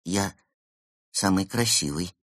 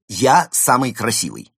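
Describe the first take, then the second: First: Unsure. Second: Loud, assured boast; self-admiring demonstration. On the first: A narrator's reading. Penguin repeating the boast without believing it, unsure. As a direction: pause after the first word, then say it doubtfully. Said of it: "неуверенно сказал Евгений". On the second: Shown as a demonstration. Panda showing the penguin how to praise himself, assured. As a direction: declare it proudly, with full conviction. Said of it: "Скажите себе".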